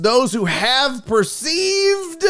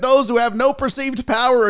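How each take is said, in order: First: "perceived" stretched out slowly and pitched high; all-caps emphasis. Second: Said in the usual way. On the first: Acted. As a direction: hit "perceived" like it is written in capitals. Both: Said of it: "all caps".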